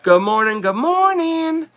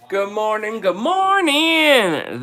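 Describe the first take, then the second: First: Jersey good morning. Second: Drawn-out "good morning, good morning", second one much higher and slow; Jersey accented greeting. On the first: Host to viewers, trying out her old Jersey-accented greeting. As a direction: sing the second "morning" up high and stretched. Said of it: "I gotta see how I used to say it". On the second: Host to viewers, showing how she used to greet them. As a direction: stretch the second "morning" high and long, Jersey style. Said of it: "That's how I said it". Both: Shown as a demonstration.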